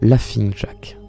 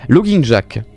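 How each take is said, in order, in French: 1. Le premier mot se dit avec le son f. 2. Le premier mot se dit sans le son f.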